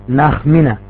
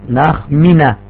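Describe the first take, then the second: No difference in how they are said.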